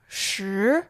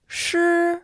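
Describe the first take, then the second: First: The pitch rises from mid to high. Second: The pitch stays high and level.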